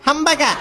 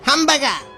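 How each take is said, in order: First: The word is said in a plain voice. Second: The word is drawn out like a cow's moo.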